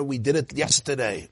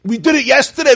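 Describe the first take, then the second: First: Said in the usual way. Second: Much higher and louder, fed up; exasperated outburst. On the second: Shown as a demonstration. Rabbi mock-shouting at the looping inner chatter, fed up. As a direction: burst out with it, fed up.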